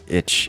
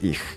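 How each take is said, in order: First: The word ends with a 'tch' sound. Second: The word ends with a soft hissing sound. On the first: The speaker calls it wrong. "It's not itch" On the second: The speaker calls it right. "it's ich"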